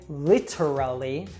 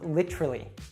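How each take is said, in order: First: The middle T is a clear, crisp T. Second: The word is shortened and a syllable dropped. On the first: The speaker calls it wrong. "we usually don't say literally" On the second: The speaker calls it right. "or we'll even reduce it"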